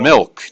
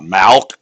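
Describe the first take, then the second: First: The vowel is a short 'ih' sound. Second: The vowel is an open 'ah' sound. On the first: The speaker calls it right. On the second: The speaker calls it wrong. "not malk. You from Boston? Or are you from Wisconsin?"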